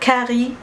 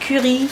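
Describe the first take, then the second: First: The word has an English pronunciation. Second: The word has a French pronunciation. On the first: "je dise euh, curry ... moi j'utilise les termes en anglais" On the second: "au lieu de dire"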